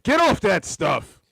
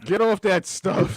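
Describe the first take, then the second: First: Slow, higher sitcom dad scolding; goofy clueless sitcom voice. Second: Slow sitcom dad scolding; hammed-up slow sitcom dad line; goofy clueless sitcom voice. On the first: Retold or imitated. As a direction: stretch it like a TV dad. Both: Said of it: "sounded like a sitcom dad".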